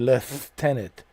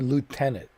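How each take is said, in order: First: The word is said with an f sound. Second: The word is said without an f sound. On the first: The speaker calls it wrong. "Why has it to be lieutenant" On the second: The speaker calls it right. "Why does the f has to be there? Why can't you say lieutenant?"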